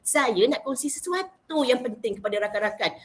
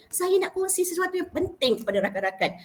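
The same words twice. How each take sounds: First: Said in the usual way. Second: "sesuatu yang penting" lifted high in storytelling tune; storytelling intonation. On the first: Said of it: "Ayat dia simple". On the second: Shown as a demonstration. Young preacher sharing something important with friends, high storytelling intonation. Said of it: "menjadikan da'i cilik tu menjadilah macam bercerita".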